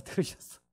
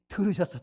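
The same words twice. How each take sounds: First: 들으셨어 whispered softly. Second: Said in the usual way. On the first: Shown as a demonstration.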